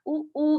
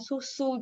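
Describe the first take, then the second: First: The s sounds are left out entirely. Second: Both s sounds are clearly pronounced. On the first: The speaker calls it wrong. "nggak uu kayak gitu" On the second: The speaker calls it right. "kita bisa ajarkan susu gitu"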